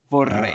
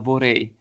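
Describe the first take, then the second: First: The r sound is long and strong. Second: The r sound is short and weak. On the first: The speaker calls it right. "Es gibt zwei R. Vorrei. Das ist ganz stark" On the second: The speaker calls it wrong. "du hast gesagt, vorrei. Das ist ein bisschen komisch"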